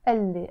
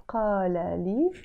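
First: قال لي run together as elle, Q dropped; as one word. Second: قال لي said in full as qaala lii, with a Q; two separate words in قال لي, Q and long vowels sounded; as written. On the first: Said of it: "as if it's one word". (merge قال لي into elle) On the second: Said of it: "I wrote it". (spell out قال لي formally, qaa-la lii) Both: Shown as a demonstration.

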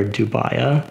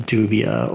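First: Dubia said doo-BYE-uh; second reading of dubia, as doo-BYE-uh; alternative pronunciation. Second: Dubia said DOO-bee-uh; first reading of dubia, as DOO-bee-uh; alternative pronunciation. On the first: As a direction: say dubia with an "eye" in the middle. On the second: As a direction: say dubia with an "ee" in the middle. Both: Shown as a demonstration. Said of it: "Not really sure how you pronounce it".

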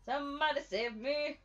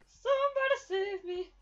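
First: Said in the usual way. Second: Higher, louder wail on somebody; hammed-up plea for rescue; mock desperate plea. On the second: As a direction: cry out like a damsel in distress. Calling for help while chased.

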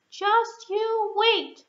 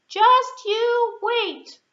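First: Much higher, slow, stress on wait; slow promise. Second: Much higher, slow, punching just; emphatic promise. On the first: Mouse promising the lion, slow with wait stressed. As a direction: drag it out, landing on wait. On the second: Mouse insisting to the lion, slow with Just punched. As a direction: hit Just hard and slow. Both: Acted.

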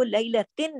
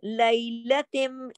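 First: "लैलतिन" at talking speed, ending on a short n; unmerged tanween. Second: "लैलतिम" very slowly, closing on a hummed m; idgham into meem. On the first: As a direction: close "लैलतिन" on a clear n, no hum. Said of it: "नहीं पढ़ेंगे". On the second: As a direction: draw out "लैलतिम" with a long final m. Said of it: "तिम पढ़ेंगे". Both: Shown as a demonstration.

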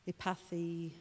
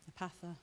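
First: First stab at Epathy, ending in "ee"; hesitant try at Epathy, tentative; unsure pronunciation. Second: Second stab at epatha, ending in "uh"; softer, hesitant try at epatha; unsure pronunciation. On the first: Preacher struggling with a foreign word, unsure "Epathy". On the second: Preacher retrying a foreign word, tentative "epatha". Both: Real, not acted. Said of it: "this word that I'm really rubbish at pronouncing".

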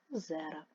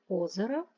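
First: Озера with the weight on -зе-; stress on second syllable. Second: Озера with the weight on opening О; stress on first syllable. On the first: Teacher giving the plural form, second-syllable stress on озера. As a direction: lean on the middle of озера. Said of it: "але багато". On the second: Teacher giving the singular case form, first-syllable stress on Озера. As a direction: lean on the first vowel of Озера. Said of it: "Немає кого чого". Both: Shown as a demonstration.

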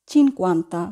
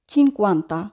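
The two takes are said the same way.

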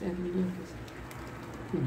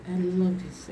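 First: Softer, slowly savouring each word; soft slow repeat. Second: Said in the usual way. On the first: Real, not acted. Vlogger admiring her new laptop, soft and slow. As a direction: murmur it fondly to yourself.

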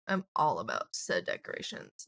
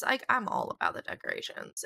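First: Mock formal low. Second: Said in the usual way. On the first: Shown as a demonstration.

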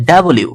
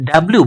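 First: ডাব্লিউ in full syllables, "da-bo-liu"; full W name. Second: Said in the usual way. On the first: Shown as a demonstration. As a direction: open up ডাব্লিউ as "dabo-liu". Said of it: "এটা হচ্ছে". (ডাব্লিউ-কে "ডাবলিউ" ভেঙে উচ্চারণ) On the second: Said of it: "বলি যে আমরা".

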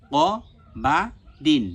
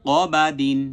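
First: ক, বা, দিন each alone with a pause; syllable by syllable. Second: ক বা দিন louder, run together as one word; joined together. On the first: Teacher repeats each syllable several times, spaced apart. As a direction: spell out ক বা দিন piece by piece. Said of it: "কয়েকবার উচ্চারণ যখন আমার হয়ে গেল". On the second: Teacher shows pronouncing the word all together, joined up. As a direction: read ক বা দিন firmly without gaps. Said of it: "একসাথে ভালোভাবে উচ্চারণ করব". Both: Shown as a demonstration.

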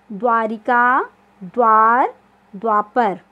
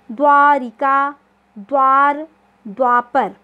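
First: Said in the usual way. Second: द्वारिका, द्वार, द्वापर said slow and loud, each द्व sounded out; teacher sounding out द्व for pupils; clear pronunciation of द्व. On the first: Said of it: "quick recap of words". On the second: Shown as a demonstration. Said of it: "उच्चारण आ रहा है आपका द्व".

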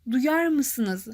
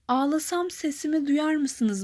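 First: Duyar said plainly with the weight on it; teacher isolates duyar; stress on duyar. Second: Slow whispered line with duyar leaned on; hushed poetic reading, duyar stressed; whispered verse, stress on duyar. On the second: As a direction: breathe the line, weight on duyar. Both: Shown as a demonstration. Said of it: "kelimemiz duyar".

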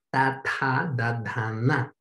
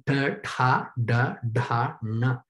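First: "ta, ta, da, da, na" with the tongue touching the teeth; tongue on the teeth as in Spanish; dental consonants. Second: "ta, ta, da, da, na" with the tongue curled back to the palate; slow demo, tongue against the roof of the mouth; retroflex consonants. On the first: Teacher demonstrating dental consonants for contrast, tongue on teeth. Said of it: "se hacen en el diente". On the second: Teacher demonstrating cerebral consonants to the class, tongue on the palate. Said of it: "con la lengua en el paladar". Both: Shown as a demonstration.

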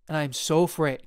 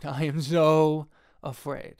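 First: Said in the usual way. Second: Slow, laughing repeat of the confession; laughing mock fear. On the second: Shown as a demonstration. Filmmaker repeats his fear to viewers, slow and laughing. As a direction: drag it out with a laugh, half joking.

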